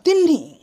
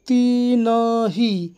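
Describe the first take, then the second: First: The n and h are joined as one cluster. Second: The n and h are split by a vowel. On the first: The speaker calls it right. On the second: The speaker calls it wrong.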